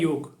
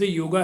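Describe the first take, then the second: First: The word ends on the consonant, without a vowel. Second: The word ends with an added final 'a' vowel. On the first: The speaker calls it right. "सच्ची बात तो है योग" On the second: The speaker calls it wrong. "Actually सही शब्द योगा है ही नहीं"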